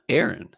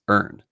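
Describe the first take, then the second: First: It is said in a standard American accent. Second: It is said in a strong Philadelphia accent. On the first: "My cousin Erin is not Aaron" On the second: "they got strong accents"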